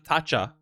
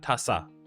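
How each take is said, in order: First: The middle consonant is a ch sound. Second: The middle consonant is an s sound. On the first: The speaker calls it wrong. "Not the Taça" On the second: The speaker calls it right. "it's the Taça Portuguesa"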